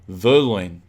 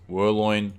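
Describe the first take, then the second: First: The name begins with a V sound. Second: The name begins with a W sound. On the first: The speaker calls it right. "it's Verloin. V" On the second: The speaker calls it wrong. "It's not Werloin"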